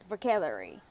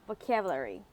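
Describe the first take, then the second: First: It is said with a native English accent. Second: It is said with a native English accent.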